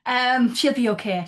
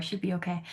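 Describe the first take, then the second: First: Slower, louder reassurance; reassuring. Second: Softer, to herself; trailing off. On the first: Host reassures the panel about the actress, slow and emphatic. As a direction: insist kindly that she'll be fine. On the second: Host quietly repeats it to herself, fading. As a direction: let the reassurance fade away. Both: Real, not acted.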